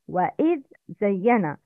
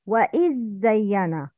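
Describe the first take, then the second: First: The dh is heard clearly before the z. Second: The dh blends into the following z. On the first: The speaker calls it right. "That's the right" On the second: The speaker calls it wrong. "But the wrong is"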